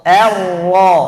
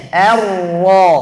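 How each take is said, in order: Both takes have the same delivery.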